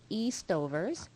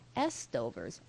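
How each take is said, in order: First: The first syllable sounds like 'east'. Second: The first syllable sounds like 'ess'.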